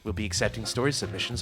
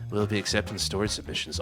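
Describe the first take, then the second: First: It is read in a plain, ordinary voice. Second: It is read in a close, late-night radio voice.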